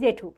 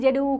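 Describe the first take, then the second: First: The middle consonant is an aspirated 'th' sound. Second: The middle consonant is an 'r' sound. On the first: "আমরা ছোট করে এমনিতেই বাচ্চাদেরকে শেখাই জেঠু" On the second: "ঠটাকে সে উচ্চারণ করতে পারে না, জেরু বলছে"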